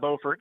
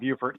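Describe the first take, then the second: First: It is pronounced the North Carolina way. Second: It is pronounced the South Carolina way. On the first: It names the town in North Carolina. "North Carolina's got Beaufort" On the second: It names the town in South Carolina. "South Carolina's got Beaufort"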